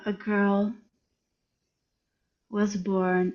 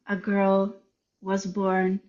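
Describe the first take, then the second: First: It is read very slowly with long silences. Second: It is read somewhat slowly. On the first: "much slower" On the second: "I read it slower"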